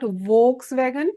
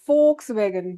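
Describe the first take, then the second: First: The word starts with a v sound. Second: The word starts with an f sound. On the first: The speaker calls it wrong. "It is not Volkswagen" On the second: The speaker calls it right. "Their V is spoken as F"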